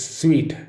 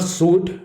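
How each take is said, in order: First: "suite" said SWEET; "sweet" with a w glide, like the candy word; right suite. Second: "suit" said SOOT, higher; "suit" with an oo sound; wrong suit. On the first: Teacher showing students the right way, "suite" as SWEET. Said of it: "then it is a suite". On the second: Teacher showing students the wrong way, "suit" as SOOT. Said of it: "a suit". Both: Shown as a demonstration.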